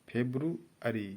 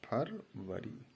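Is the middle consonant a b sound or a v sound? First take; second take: b sound; v sound. First: The middle has a b followed by r. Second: The middle has r followed by a v sound. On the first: This is the English pronunciation. "बा में ये बा है, वा नहीं" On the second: This is the everyday Hindi form. "जिसको हम लोग कहते हैं"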